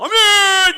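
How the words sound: It is said loudly and enthusiastically.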